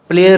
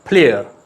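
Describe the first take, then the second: First: The first p sound has no puff of air. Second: The first p sound has a strong puff of air. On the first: The speaker calls it wrong. "प्लेयर नहीं" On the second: The speaker calls it right. "इसको आपने फे कहना है"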